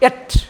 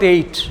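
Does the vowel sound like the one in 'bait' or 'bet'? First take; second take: bet; bait. First: The vowel is short, like in 'bet'. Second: The vowel is long, like in 'bait'. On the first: The speaker calls it right. "A T E is to be pronounced as et" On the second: The speaker calls it wrong. "not ate"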